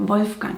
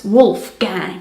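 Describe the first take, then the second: First: "Wolfgang" with a German V sound; German pronunciation. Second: Slow American "Wolfgang"; American accent. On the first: Introducing the next German name, German pronunciation. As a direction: say "Wolfgang" as VOLF-gahng. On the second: Showing viewers how Americans say it, American accent. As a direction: say "Wolfgang" slowly as WOOLF-gang, American accent. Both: Shown as a demonstration. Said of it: "Pronounced with an American accent".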